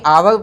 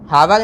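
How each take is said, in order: First: The word begins directly with a vowel. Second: The word begins with an h sound. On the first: The speaker calls it right. "आवर पढ़ेंगे इसमें" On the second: The speaker calls it wrong. "हावर नहीं"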